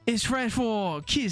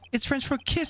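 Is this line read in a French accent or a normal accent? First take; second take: French; normal. First: It is read in a put-on French accent. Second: It is read in the speaker's normal accent.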